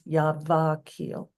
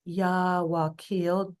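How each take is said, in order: First: The word is said with a V sound. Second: The word is said with a W sound. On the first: "the V is commonly transliterated into a V. So therefore it becomes Yavakil" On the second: "W A K I L"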